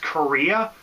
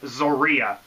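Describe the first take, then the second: First: The name begins with a K sound. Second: The name begins with a Z sound. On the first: "I was pronouncing it as Korea" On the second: "pronounces the Z or the, the X as a Z"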